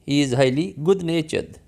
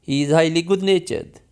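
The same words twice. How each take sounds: No difference in how they are said.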